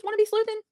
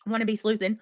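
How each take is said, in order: First: Name read back much higher with a questioning lift; puzzled question. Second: Said in the usual way. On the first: Real, not acted. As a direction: streamer rereads a viewer's odd username, puzzled high question. Rereads username as puzzled question.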